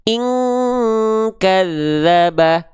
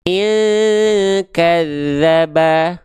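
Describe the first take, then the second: First: The nasal hum sounds close to 'ng'. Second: The nasal hum sounds far from 'ng'. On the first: The speaker calls it right. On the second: The speaker calls it wrong.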